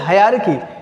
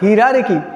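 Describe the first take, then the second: First: The first syllable sounds like 'high'. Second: The first syllable sounds like 'hee'. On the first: The speaker calls it right. "That is हायरार्की" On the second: The speaker calls it wrong. "कुछ लोग हिरार्की कहते हैं, not हिरार्की"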